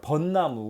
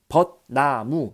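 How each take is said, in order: First: The syllables are linked, first ending in n. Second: Each syllable is said separately, without linking. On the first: The speaker calls it right. "이어서 발음하기 때문에 번, 나, 무라고 발음을 해버린단 말이에요" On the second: The speaker calls it wrong. "한 글자 한 글자 한 글자 떨어뜨려서 발음하지 않고"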